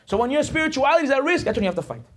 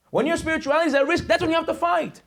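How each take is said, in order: First: Said in the usual way. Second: High, ringing rallying cry held to the end; impassioned preaching. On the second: Real, not acted. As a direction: drive the whole line home, pitched high. Preacher repeats the line for force.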